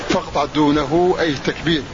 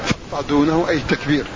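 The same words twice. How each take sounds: No difference in how they are said.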